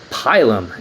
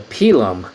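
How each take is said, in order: First: The word is said with English pronunciation. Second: The word is said with Latin pronunciation. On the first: "in English" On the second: "in Latin if you want to get fancy"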